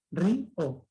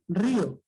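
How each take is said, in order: First: "río" broken in two, rí, o; split into syllables. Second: Said in the usual way. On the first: Shown as a demonstration. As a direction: pause between the vowels of "río". ("río" separado en sílabas: rí, o) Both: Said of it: "Se han separado".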